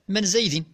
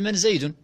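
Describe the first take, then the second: First: The name ends in the vowel i. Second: The name ends in the vowel u. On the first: This echoes a question about passing by someone. "بالجر" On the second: This is the normal form for the question. "بالرفع"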